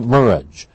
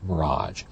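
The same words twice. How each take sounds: First: The stress is on the first syllable. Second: The stress is on the second syllable. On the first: This is a possible future anglicized form. "Maybe in a hundred years it'll be" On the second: This is the current form. "instead of"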